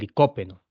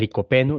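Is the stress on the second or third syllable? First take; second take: second; third. First: The stress is on the second syllable. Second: The stress is on the third syllable. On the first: The speaker calls it wrong. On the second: The speaker calls it right.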